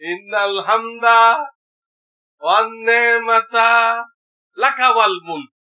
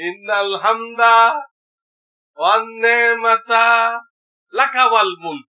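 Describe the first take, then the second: First: The phrase is broken into three parts with pauses. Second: The same.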